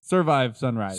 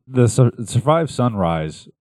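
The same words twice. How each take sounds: First: Survive Sunrise with smooth falling rhythm; right cadence. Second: Survive Sunrise said slow and halting, wrong rhythm; wrong cadence. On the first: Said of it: "not the right cadence". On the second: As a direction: Survive Sunrise stumbled, uneven stress. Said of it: "that's not the right cadence". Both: Shown as a demonstration.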